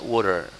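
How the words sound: The middle consonant is a soft d-like flap.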